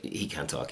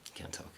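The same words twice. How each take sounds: First: Said in the usual way. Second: Much softer, dry repeat of He can't talk; near-silent deadpan repeat; deadpan aside. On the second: Real, not acted. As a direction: mutter it flatly under the breath.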